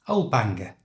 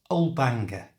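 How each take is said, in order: Both takes have the same delivery.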